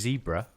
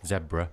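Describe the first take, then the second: First: It is said with an American accent. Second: It is said with a British accent.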